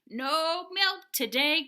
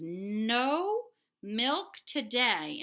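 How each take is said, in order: First: It is said loudly, like an exclamation. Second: It is said at a normal, quiet level.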